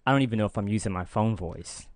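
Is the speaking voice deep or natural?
deep. The voice is pushed down low and deep.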